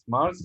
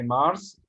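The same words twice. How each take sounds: First: The word ends with a buzzing z sound. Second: The word ends with a hissing s sound. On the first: The speaker calls it right. "this S at the end of Mars is the sound" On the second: The speaker calls it wrong. "not sa sound. Don't say Mars"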